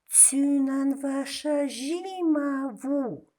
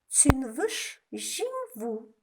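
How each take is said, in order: First: Every syllable is pronounced in full. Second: Syllables are dropped and run together. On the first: "как мы пишем" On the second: "как нужно говорить"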